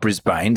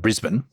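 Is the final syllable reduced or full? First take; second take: full; reduced. First: The final syllable is full, like 'bane'. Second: The final syllable is short and reduced. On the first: The speaker calls it wrong. "not Brisbane" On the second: The speaker calls it right. "congratulate on your pronunciation of Brisbane"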